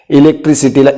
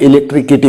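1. मधला व्यंजन s आवाज आहे. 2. मधला व्यंजन k आवाज आहे.

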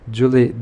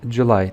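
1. Kelime 'ee' sesiyle biter. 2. Kelime 'eye' sesiyle biter. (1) "Julie değil" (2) "July diye okuyoruz"

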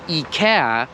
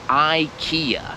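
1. Wymawia się po polsku. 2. Wymawia się po angielsku.

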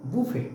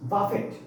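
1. শব্দটি কোনো t ধ্বনি ছাড়াই শেষ হয়। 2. শব্দটি একটি স্পষ্ট t ধ্বনি দিয়ে শেষ হয়।

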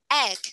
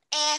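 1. Từ này kết thúc có âm g rõ ràng. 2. Từ này kết thúc không có âm g. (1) "Có âm g cuối yeah" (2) "Not e không nha con"

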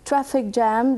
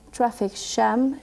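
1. El sonido de la j es limpio, con poco ruido de fricción. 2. El sonido de la j es ruidoso, con mucha fricción. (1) "en vez de decir" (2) "dicen traffic jam. ... Y tiene tanto ruido"

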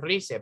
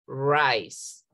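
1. La palabra se lee tal como se escribe. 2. La palabra tiene vocales y sonidos ingleses. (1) "pero no pronunciamos rice" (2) "pronunciamos rice"

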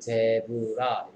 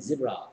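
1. 철자 그대로 읽는 발음이에요. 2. 보통 발음으로 말해요. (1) "쓸 때는 zebra" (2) "읽을 때는 zebra"

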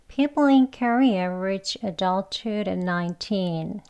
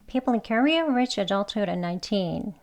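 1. 이 문장은 느린 속도로 말했어요. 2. 이 문장은 빠른 속도로 말했어요. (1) "속도는 좀 천천히 할게요" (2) "빨리 또 해볼게요"

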